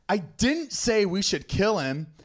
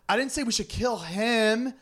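First: The stress is on the word 'didn't'. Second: The stress is on the word 'him'.

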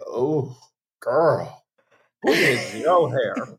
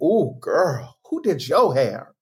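First: The tone sounds disapproving and doubtful. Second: The tone sounds admiring and impressed. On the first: The hair looks bad. "That inflection is the difference between yes and, ooh, no" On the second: The hair looks great. "you get your hair done, and they're like"

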